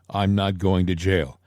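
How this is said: It is said in a calm, matter-of-fact way. "It was a matter of fact"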